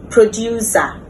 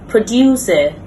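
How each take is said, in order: First: The ending is an open ah vowel. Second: The ending is a short weak vowel. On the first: The speaker calls it wrong. "commonly mispronounced" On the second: The speaker calls it right. "correct pronunciation"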